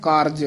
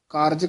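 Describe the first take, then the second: No difference in how they are said.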